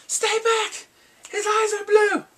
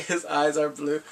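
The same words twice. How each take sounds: First: High, loud alarmed scream; shouted warning. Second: Said in the usual way. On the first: Acted. Night's Watch man warning the others, high shouted alarm. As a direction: yell it as a frantic warning. Acts out panicked warning from the show.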